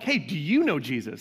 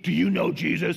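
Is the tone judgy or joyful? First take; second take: joyful; judgy. First: It sounds joyful and excited. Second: It sounds heavy and judgmental.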